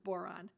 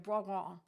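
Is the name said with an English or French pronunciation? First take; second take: English; French. First: The name is said with an English pronunciation. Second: The name is said with a French pronunciation. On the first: "That's our English pronunciation is boron" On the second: "I'm sure I'm not pronouncing it quite right"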